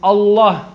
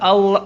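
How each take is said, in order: First: The L sound is heavy and rounded. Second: The L sound is light and thin. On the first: The speaker calls it right. "It's pronounced with a round lam" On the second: The speaker calls it wrong. "Not Allah"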